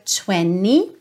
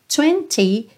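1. O t depois do n é omitido. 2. O t depois do n é pronunciado. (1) "esse T some" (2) "20 vira 20"

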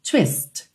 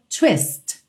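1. A palavra termina bruscamente na consoante. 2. A palavra termina bruscamente na consoante.

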